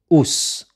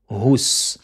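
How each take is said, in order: First: The syllable starts with a glottal stop. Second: The syllable starts with an h sound. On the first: The speaker calls it wrong. "Ne dites pas Ous, ou, Ous, en faisant un Hamza" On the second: The speaker calls it right. "mais c'est Hu, Hus"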